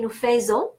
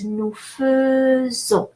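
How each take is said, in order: First: The first vowel of faisons is an open 'eh'. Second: The first vowel of faisons is a short 'uh'. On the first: The speaker calls it wrong. "a lot of people are saying" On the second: The speaker calls it right. "E, instead of E, even though it's spelled A I"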